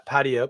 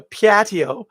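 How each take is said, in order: First: Said in the usual way. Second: Higher, louder Upper Peninsula Michigan 'Patio' with a rising tune; Upper Peninsula accent. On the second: Shown as a demonstration. Vlogger drifting into a Yooper accent saying 'Patio'. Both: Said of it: "talk like I'm from the U P".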